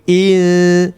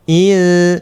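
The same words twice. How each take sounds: The two takes are said the same way.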